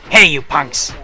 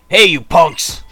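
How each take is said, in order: First: It is said in a put-on character voice. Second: It is said in the speaker's ordinary voice. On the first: The speaker calls it right. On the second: The speaker calls it wrong.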